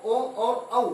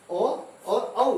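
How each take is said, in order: First: Said in the usual way. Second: ओ and औ drawn out very slowly, each vowel held long; slow vowel demo. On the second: Shown as a demonstration. Teacher shows students the vowels from throat and lips, slowly. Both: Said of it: "का जो उच्चारण होगा हमारा कंठ से और ओष्ठ से".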